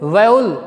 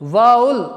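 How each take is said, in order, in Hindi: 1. पहला अक्षर 'vow' जैसा सुनाई देता है। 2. पहला अक्षर 'vow' जैसा सुनाई देता है।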